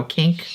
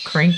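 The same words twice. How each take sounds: First: "kink" said with no R after the K; kink without R. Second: "crink" said with an R after the K. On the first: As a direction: say "kink", K straight into the vowel. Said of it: "I don't know, kink, crink". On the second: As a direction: say "crink", adding R to kink. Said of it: "my mom always called it a crink". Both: Shown as a demonstration.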